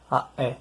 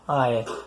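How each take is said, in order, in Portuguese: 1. Uma oclusiva glotal corta o ar antes da vogal. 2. As vogais fluem sem oclusiva glotal. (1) "se fala aé. Esse apóstrofo aí representa a oclusiva glotal" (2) "Não se fala aé"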